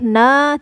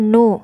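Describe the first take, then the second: First: The n is followed by an a vowel. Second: The n is followed by a u vowel. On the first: "tidak boleh na" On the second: "tidak boleh juga nu"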